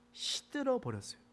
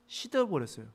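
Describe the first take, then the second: First: Higher and softer, letting 시들어 sag; drooping wilt. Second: Said in the usual way. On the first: Shown as a demonstration. Preacher paints the gourd withering, higher and softer. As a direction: sound the plant wilting on 시들어.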